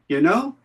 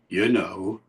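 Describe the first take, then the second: First: It is said high in the voice. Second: It is said low in the voice. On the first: It asks the listener for some sympathy. "different from the one I used before, which was high up" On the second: It adds words to clear up an ambiguity. "it's low down"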